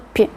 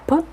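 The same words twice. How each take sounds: First: The consonant is soft and palatalized. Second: The consonant is hard, not palatalized. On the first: "sino p" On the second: "No sería p"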